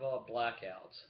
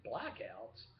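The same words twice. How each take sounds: First: Said in the usual way. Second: Imitating a viewer's puzzled "Blackouts?"; puzzled question. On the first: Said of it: "Yeah, I have". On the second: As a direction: voice the viewer asking "Blackouts?" in mild disbelief. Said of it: "you're probably thinking".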